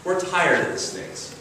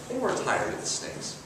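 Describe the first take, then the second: First: Said in the usual way. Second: Whispered, much softer echo of the complaint; quiet echo. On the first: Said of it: "who told Moses". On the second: Acted. Preacher repeating the Israelites' complaint, hushed whisper. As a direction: breathe the line back like an afterthought.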